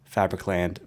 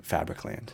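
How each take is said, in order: First: "Fabricland" said with a falling tune. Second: "Fabricland" softer, with a rising tune. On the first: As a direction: let "Fabricland" drop at the end. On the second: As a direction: echo "Fabricland" quietly, tipping up. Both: Shown as a demonstration. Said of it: "repeated album title".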